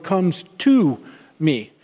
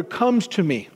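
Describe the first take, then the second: First: TO stressed, then a pause before "me". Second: Said in the usual way. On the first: Shown as a demonstration. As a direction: lean on "to" and let "me" drop after a beat. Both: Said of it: "there's an emphasis on the word".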